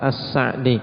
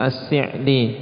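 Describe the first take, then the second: First: The first syllable has the vowel 'a'. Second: The first syllable has the vowel 'i'. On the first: This is the standard literary Arabic form. "Kalau secara bahasa yang fasih, nah lughah yang fasihah, maka dengan memfathah As-Sa'di" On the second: This is the everyday dialect form. "As-Si'di dengan kasrah. Itu berdasarkan lughah amiyah"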